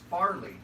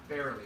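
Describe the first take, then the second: First: The first syllable sounds like 'far'. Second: The first syllable sounds like 'fair'. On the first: The speaker calls it right. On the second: The speaker calls it wrong.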